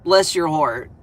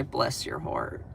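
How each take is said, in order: First: Full-voiced sugary "Bless your heart."; southern bless your heart. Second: Whispered, slow and syrupy "Bless your heart."; southern bless your heart. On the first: Southern streamer to a hater, sugary mock sweetness said aloud. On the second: Pretend. Southern streamer to a hater, whispered slow mock sweetness.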